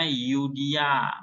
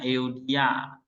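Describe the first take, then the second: First: "Yudia" said as yu-DI-a, the eu read as a plain u; reading pronunciation. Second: "Eudia" said slowly as e-u-di-a, each letter sounded; spelled name. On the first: Teacher showing the class how the Greek diphthong is read aloud, spoken as Yudia. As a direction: sound the eu like a u, so "Yudia". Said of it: "Jadi bacanya Yudia". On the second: Teacher giving the written name of the Greek word, slow careful e-u-di-a. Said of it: "namanya Eudia". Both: Shown as a demonstration.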